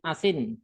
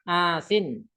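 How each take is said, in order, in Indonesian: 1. Vokal pertama dibuat pendek. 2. Vokal pertama dipanjangkan. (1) "kalau qasar" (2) "kalau mat"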